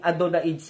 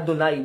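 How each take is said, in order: First: The word ends with an added 'ds' sound. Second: The word ends with a plain 'ai' sound.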